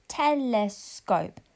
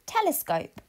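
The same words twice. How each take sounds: First: Telescope said slowly and blended; blended word, slow. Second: Said in the usual way. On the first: Shown as a demonstration. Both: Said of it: "Your turn".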